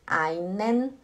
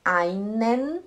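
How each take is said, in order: Both takes have the same delivery.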